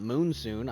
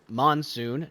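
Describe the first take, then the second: First: The first syllable sounds like 'moon'. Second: The first syllable sounds like 'mon'. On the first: The speaker calls it wrong. "I've been pronouncing it wrong" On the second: The speaker calls it right. "this is monsoon"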